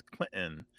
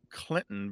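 First: Clinton with a glottal stop for the T. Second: Said in the usual way. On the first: Shown as a demonstration. Host showing his son's generation's form, glottal Clinton. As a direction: catch the middle T of Clinton in the throat. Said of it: "that D sometimes becomes a glottal". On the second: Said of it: "Clinton becomes Clinton".

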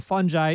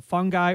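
First: "fungi" with a soft g, FUN-jye. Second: "fungi" with a hard g, FUNG-guy. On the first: Host reports dictionary answer, soft-g "fungi" as FUN-jye. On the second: Host reports dictionary answer, hard-g "fungi" as FUNG-guy. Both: Shown as a demonstration. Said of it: "correct answer to the question".

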